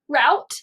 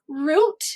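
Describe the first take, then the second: First: The vowel is an 'ow' sound. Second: The vowel is an 'oo' sound. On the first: "some people will pronounce this word r out" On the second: "This word can be pronounced root"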